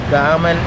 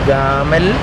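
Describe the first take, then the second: Both takes have the same delivery.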